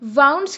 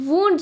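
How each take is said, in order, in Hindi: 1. स्वर 'cow' के 'ow' जैसा है। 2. स्वर 'moon' के 'oo' जैसा है। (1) "वाउंड्स की जगह" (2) "आपने वुंड्स बोलना है"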